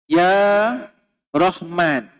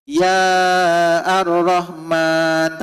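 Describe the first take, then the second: First: Ya Rahman with no al, Rah- said straight after Ya; correct Ya Rahman. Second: Ya Ar-Rahman drawn out slowly, with the al kept; wrong form Ya Ar-Rahman. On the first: Teacher showing the class the right call, careful demo. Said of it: "Contoh, kita sebut". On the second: Teacher showing students the wrong form, slow demo. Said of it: "Tak boleh". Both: Shown as a demonstration.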